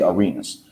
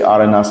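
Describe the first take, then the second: First: The name is pronounced with English sounds. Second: The name is pronounced with Spanish sounds. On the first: "just say" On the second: "like the Spanish pronouncing"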